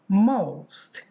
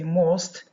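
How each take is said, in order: First: The vowel glides from one quality to another. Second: The vowel stays steady without gliding. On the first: The speaker calls it right. "but most" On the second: The speaker calls it wrong. "We don't say most"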